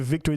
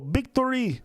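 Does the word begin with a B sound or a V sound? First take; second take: V sound; B sound. First: The word begins with a V sound. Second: The word begins with a B sound. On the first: "They won't say victory" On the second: "They go victory"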